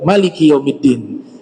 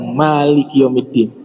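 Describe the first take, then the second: First: The vowel after the m is short. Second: The vowel after the m is long. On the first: God is the king of the Day of Judgment. "bacanya pendek" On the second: God is the owner of the Day of Judgment. "dibaca panjang"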